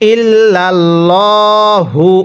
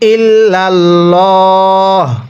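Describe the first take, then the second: First: The word ends with a final 'u' vowel. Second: The word ends without the final vowel. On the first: The reading continues without stopping. "হা পেশ হু" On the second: The reader stops here. "ওয়াকফ করলে"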